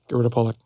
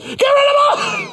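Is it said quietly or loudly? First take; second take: quietly; loudly. First: It is said quietly. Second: It is said loudly.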